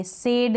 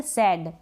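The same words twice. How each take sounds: First: सेड said with a plain e as in bed; the wrong take सेड, short e; wrong vowel sed. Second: सैड with an open ae vowel; sad with ae vowel. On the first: Teacher shows the wrong way: सेड with e. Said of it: "सेड नहीं बोलेंगे". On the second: Teacher models the right सैड, open ae. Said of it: "हम बोलेंगे सैड". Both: Shown as a demonstration.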